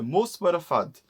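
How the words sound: The final vowels are cut and words blend together. "you cut the vowels in the end of each word"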